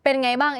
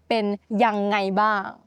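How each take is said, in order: First: The phrase is said in a shortened form. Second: The phrase is said in its full form. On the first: "is a more natural way of saying how are you we shorten ยังไง to ไง" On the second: "some of you may just know"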